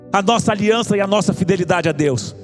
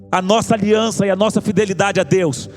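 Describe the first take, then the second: No difference in how they are said.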